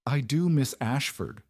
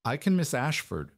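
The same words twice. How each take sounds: First: Higher, mildly nervous clerk's reply; nervous stammer. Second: Understated, carefully neutral reply. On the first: Nervous clerk to his demanding mistress, mild stammer. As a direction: answer the boss a touch nervously. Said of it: "Higgins stammered". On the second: Servant replying to his mistress, kept neutral. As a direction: answer the boss without showing feeling. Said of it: "keeping his voice neutral". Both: A narrator's reading.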